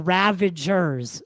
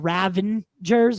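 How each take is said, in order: First: No N sound comes before the G. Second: An extra N sound comes before the G. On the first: The speaker calls it right. "with no N" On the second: The speaker calls it wrong. "with an N"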